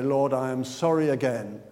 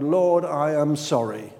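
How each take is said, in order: First: Lower, offhand repeat; a bored, habitual sorry; routine apology. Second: Slow, sincere prayer; mean it, slowly; a slow, heartfelt confession; earnest plea. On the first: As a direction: toss off the same prayer by habit. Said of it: "you say". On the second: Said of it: "you say to the Lord". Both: Retold or imitated.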